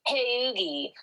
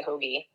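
First: High-pitched mock Delco "Hey, Oogie" for hoagie; Tina Fey. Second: Said in the usual way. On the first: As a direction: botch "hoagie" as a drawn-apart "Hey, Oogie". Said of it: "That's what Tina Fey fucking does". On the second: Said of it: "that's not how we say hoagie".

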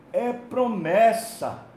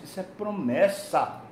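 First: "É promessa" repeated slowly and louder, higher, each word weighted; emphatic repeat. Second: Said in the usual way. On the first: Real, not acted. Preacher to the congregation, repeating "É promessa" slow and emphatic. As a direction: lean hard on "É promessa", drawing it out.

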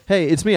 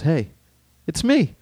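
First: Higher, smug rising me; cocky Han Solo. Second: High, cocky hey it's me; cocky Han Solo. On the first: Friend re-quoting Han's line, smug and cocky. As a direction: say it like nothing can touch you. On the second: Han brushing off Luke's warning, cocky. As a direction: toss it off with swagger. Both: Retold or imitated. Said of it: "I love that attitude".

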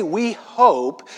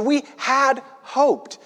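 First: Said in the usual way. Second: High and slow, "had" set apart before "hoped"; stress on "had". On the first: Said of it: "See, they didn't say". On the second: Shown as a demonstration. Preacher correcting the tense for listeners, stress on "had". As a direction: stretch and stress "had" for contrast. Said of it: "They said, "We had hoped".

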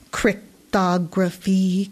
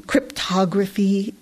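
First: Slow, drawn-out irate hiss. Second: Parroting the word back, mildly mocking. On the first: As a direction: hiss the word out, annoyed and slow. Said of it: "came an irate hiss". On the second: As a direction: echo it back with a light sneer. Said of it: "Gage parroted". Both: A narrator's reading.

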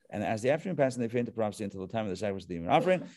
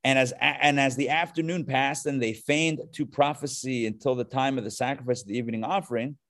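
First: Quick, softer run through the verse; rushed rereading. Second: Said in the usual way. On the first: Real, not acted. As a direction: rattle it off under your voice. Rattles through the same verse again.

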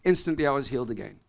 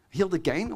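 First: Said in the usual way. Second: "Healed again?" lifted into a puzzled question; questioning echo. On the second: Shown as a demonstration. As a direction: lean on "Healed" and let "again?" rise up in disbelief. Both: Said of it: "Wait, wait a minute".

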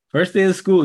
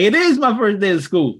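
First: Said in the usual way. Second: "is" pushed up and hit firmly; stress on IS. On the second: Retold or imitated. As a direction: land on the word "is". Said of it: "She's like".

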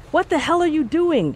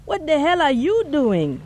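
First: Sharp high startled shout; startled high shout at a stranger. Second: High indignant demand in a man's voice; voiced man demanding angrily. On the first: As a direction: snap it out high and alarmed. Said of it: "she shouted". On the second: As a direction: throw her question back at her, stung. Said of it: "the man demanded". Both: A narrator's reading.

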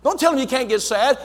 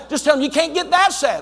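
First: Said in the usual way. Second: "that" punched, higher and louder; stress on that. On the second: Shown as a demonstration. Preacher correcting the congregation, hitting "that" hard. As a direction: lean hard on the word "that".

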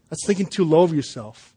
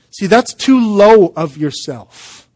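First: "low" carries the weight, at normal pace; stress on low. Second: Slow, louder, leaning hard on "too"; stress on too. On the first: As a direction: settle the emphasis on "low". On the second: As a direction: punch "too" in "too low of yourself". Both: Shown as a demonstration.

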